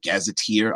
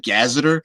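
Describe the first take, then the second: First: The word ends with a 'teer' sound. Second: The word ends without a 'teer' sound. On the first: "that T E E R sound is like Gazetteer" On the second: "some people call it a, um, a, a gazeter"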